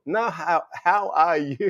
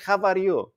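First: "how are you" said as clear English words; correcting pronunciation. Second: Put-on "How are you?" in heavy Greek-accented English; high Greek-English mash-up; Gringlish accent. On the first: Retold or imitated. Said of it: "Mom, what? How are you?". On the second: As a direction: imitate mum's Greek-accented question, pitched up. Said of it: "Greek and English mixed".

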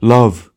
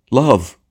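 First: LOVE repeated deeper and very loud; theatrical tragedian booming out "Love"; a few notes deeper. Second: LOVE cried high and loud; theatrical tragedian's raised exclamation on "Love"; higher first cry. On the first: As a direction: drop "Love" a few notes, at full volume. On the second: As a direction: exclaim "Love" loudly, pitched up. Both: A narrator's reading. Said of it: "Then, a few notes deeper".

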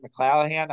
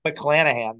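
First: "McClanahan" said with an L in place of the first N, like "McClallahan"; unsure mispronunciation. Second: "McClanahan" with a clear N in the middle, "muh-CLAN-uh-han"; corrected pronunciation. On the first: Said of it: "I don't know how to pronounce it". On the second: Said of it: "there we go". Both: Real, not acted.

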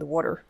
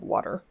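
First: Water said as Philly wooder, flat ah vowel and d sound; Philly accent on water, like wooder. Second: Said in the usual way. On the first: Shown as a demonstration. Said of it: "in a Philly accent with water". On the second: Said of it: "Or I could say that in a Philly accent with water".

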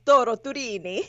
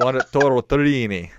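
First: Toro Turini with both R's trilled; rolled r. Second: Toro Turini with plain American R's; flat r. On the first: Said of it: "You gotta roll the R's". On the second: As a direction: Toro Turini said without a trill. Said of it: "You sound like my husband saying it". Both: Shown as a demonstration.

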